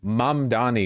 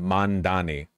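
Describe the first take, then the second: First: The sound before the d is m. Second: The sound before the d is n. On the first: The speaker calls it right. "Mamdani is easier to say" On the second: The speaker calls it wrong. "They consistently mispronounce his name"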